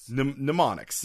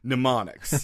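First: The word starts with a clearly heard M sound. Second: The word starts with an N sound, no M. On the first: The speaker calls it wrong. "I'm just putting it too much of an M at the beginning" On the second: The speaker calls it right. "There you go"

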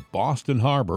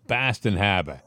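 First: It is said in a general American accent. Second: It is said in a Boston accent.

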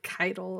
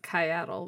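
First: No extra vowel is heard after the first syllable. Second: An extra vowel is heard after the first syllable. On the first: "where did the other A go" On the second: "everybody firstly decided it was Kyattle"

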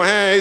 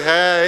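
First: It is said in a whiny voice. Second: It is said confidently, with attitude.

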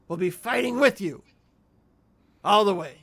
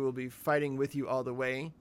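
First: It peaks on "fighting with you", then adds "all the way". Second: It runs straight through with no break. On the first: "he puts an exclamation mark after fighting with you and then just tags in all the way" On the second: "I figured just reading, like"

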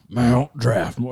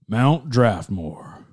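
First: It is said in a very throaty voice. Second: It is said in a lightly gruff voice.

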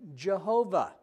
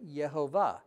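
First: The name begins with a J sound. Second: The name begins with a Y sound. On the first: The speaker calls it wrong. "they started pronouncing it Jehovah" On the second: The speaker calls it right. "There's a Y. And so you would really say Yehovah"

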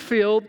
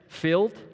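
First: The word is said in a Texan drawl. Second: The word is said slowly and carefully enunciated. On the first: "that's the Texas way of saying it" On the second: "Got to really focus on saying it"

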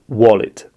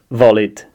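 First: The word begins with a W sound. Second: The word begins with a V sound. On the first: The speaker calls it right. "It's the W sound, not V sound" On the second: The speaker calls it wrong. "So I would say something like"

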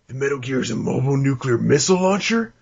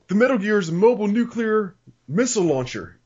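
First: It is said as a question, rising. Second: It is said as a statement, falling.

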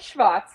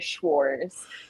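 First: The name is said the German way. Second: The name is said the American way.

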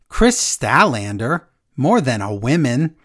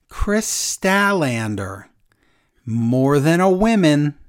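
First: It is read in a put-on character voice. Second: It is read in a plain, normal voice.

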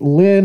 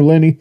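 First: The name is said as one syllable. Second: The name is said as two syllables. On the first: "pronounce it Lynn" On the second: "or Lenny. They prefer Lenny"

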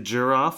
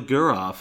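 First: The G sounds soft, like a J. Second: The G sounds hard, like in go. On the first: "a soft G" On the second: "a hard G"

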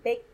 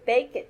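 First: The ending is a single short t sound. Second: The ending is said as a separate syllable. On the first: The speaker calls it right. "it sounds like it, like baked" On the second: The speaker calls it wrong.

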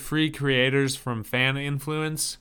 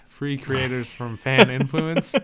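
First: It is said at a normal speaking volume. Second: It is said loudly with extra force.

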